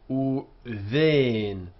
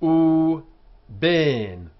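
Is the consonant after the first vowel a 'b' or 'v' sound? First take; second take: v; b. First: The second word starts with a v sound. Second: The second word starts with a b sound. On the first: "In modern Hebrew, it would be uven" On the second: "in our Spanish and Portuguese pronunciation, ... we still say b"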